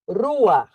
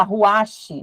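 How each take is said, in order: First: Rua with a throaty German R; rua, no final che, guttural R; correct rua. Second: Ruache with a hard final che; the mispronounced ruache, ending in -che; wrong ruache. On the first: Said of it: "tem som de R no alemão". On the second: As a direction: ruache said with a spoken final syllable. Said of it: "não é ruache". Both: Shown as a demonstration.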